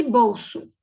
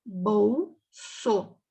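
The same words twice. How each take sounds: First: Said in the usual way. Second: "Bolso" broken into BOL... SO; split syllables. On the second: Shown as a demonstration. Teacher showing pupils syllable division, "Bolso" split in two.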